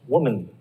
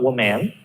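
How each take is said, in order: First: The second syllable has a reduced schwa vowel. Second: The second syllable has a full 'man' vowel. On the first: The speaker calls it right. "it's mun over there" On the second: The speaker calls it wrong. "it's not woman"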